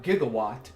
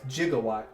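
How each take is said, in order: First: The word starts with a hard G sound. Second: The word starts with a J sound. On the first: This is the standard pronunciation. "not gigawatt" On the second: This is how it is said in the movies. "with a J sounding"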